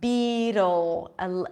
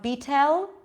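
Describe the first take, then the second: First: The final L is dark, pulled back. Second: The final L is light, tongue forward. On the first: The speaker calls it right. "pull it in for the dark L" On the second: The speaker calls it wrong. "It's not beetle, not beetle, right? It's not a light, light L"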